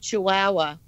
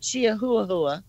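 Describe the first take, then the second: First: The word is said in a plain English way. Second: The word is said with a Norwegian-style pronunciation. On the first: "instead of saying Chihuahua" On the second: "I knew a Norwegian girl once, ... she used to say Chiahuahua"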